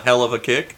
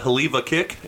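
First: The phrase is said with its ordinary pronunciation. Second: The phrase is said with an altered pronunciation. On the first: "It's a hell of a kick. That's what it's called" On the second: "They mispronounce it like on purpose"

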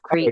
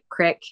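First: The word has a long vowel, like 'creek'. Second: The word has a short vowel, like 'crick'. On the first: This is the usual way to say it. "instead of creek" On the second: This is how rural Wyoming people say it. "to say, like, crick instead of creek"

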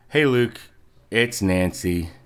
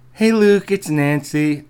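First: It is said in the speaker's ordinary voice. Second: It is said in a put-on female voice. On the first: The speaker calls it wrong. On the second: The speaker calls it right.

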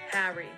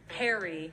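First: It is said in a Philadelphia accent. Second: It is said in a general American accent.

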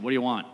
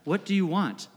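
First: It is said in an annoyed, snappy tone. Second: It is said in a kind, gentle tone.

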